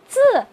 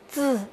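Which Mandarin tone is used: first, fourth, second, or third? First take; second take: fourth; third. First: The pitch falls sharply from high. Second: The pitch dips low, then rises.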